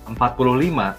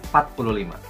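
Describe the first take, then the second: First: Every sound of the number is fully pronounced. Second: Some sounds of the number are dropped. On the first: The speaker calls it right. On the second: The speaker calls it wrong.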